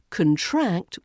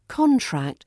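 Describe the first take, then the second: First: The stress is on the second syllable. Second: The stress is on the first syllable.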